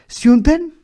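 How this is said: The word is distorted with a Slavic-sounding pronunciation.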